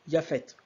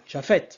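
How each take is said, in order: First: The name begins with a Y sound. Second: The name begins with a soft J sound. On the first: The speaker calls it right. "en hébreu occidental, on dit Yaphet" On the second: The speaker calls it wrong. "on ne dit pas Japhet"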